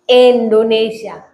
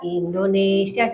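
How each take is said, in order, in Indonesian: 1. Diawali dengan vokal E, diucapkan dengan semangat. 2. Diawali dengan vokal I biasa. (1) "kalau semangat" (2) "Kalau lagunya biasa"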